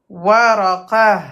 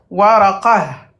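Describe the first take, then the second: First: The word stops short, ending in a soft 'h'. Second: The word stops short, ending in a soft 'h'.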